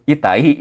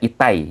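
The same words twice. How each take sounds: First: The final i is a separate, distinct syllable. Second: The final i glides like a y sound. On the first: The speaker calls it wrong. "jangan kayak gitu" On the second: The speaker calls it right. "agak agak seperti pakai huruf Y"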